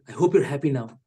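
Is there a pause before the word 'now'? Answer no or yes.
no. It runs on without a pause before now. A condescending jab at the listener. "this might sound condescending"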